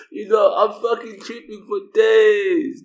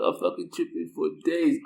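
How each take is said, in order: First: Slow, high, loud shout of distress; upset shout. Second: Said in the usual way. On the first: Real, not acted. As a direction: yell it out, drawn out. Telling how upset he was.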